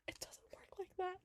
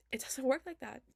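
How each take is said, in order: First: Whispered aside. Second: Emphatic louder. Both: Real, not acted. Repeated line, loud then whispered.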